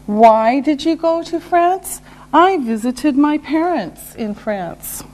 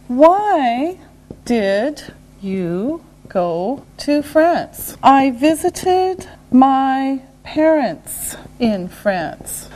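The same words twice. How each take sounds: First: Said in the usual way. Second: Word by word, with gaps; slow and deliberate. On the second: Shown as a demonstration. Teacher modelling a why question and answer, slowly. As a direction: draw out each word for learners.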